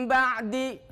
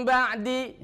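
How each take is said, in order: No difference in how they are said.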